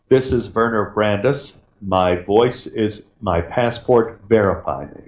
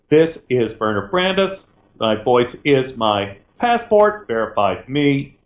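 First: It is said in one smooth, even delivery. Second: It sounds choppy, with shifting tones.

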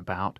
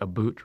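First: It has a general American vowel sound. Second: It has a coastal Virginia vowel sound. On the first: "rather than about" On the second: "They say about"

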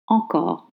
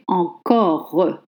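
First: The final E is unstressed and R voiced. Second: The final E is stressed. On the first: The speaker calls it right. "You voice the R sound and you don't stress the E" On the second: The speaker calls it wrong. "You don't say encore"

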